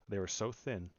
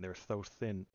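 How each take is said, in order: First: The s sound is clear. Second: The s sound is lisped.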